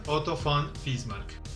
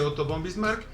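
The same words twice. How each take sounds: First: The name is said with German sounds, v like f. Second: The name is said with Spanish sounds. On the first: This is the correct form in German. "para pronunciarlo correctamente en alemán" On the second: This is the usual form in Spanish. "normalmente en castellano se dice"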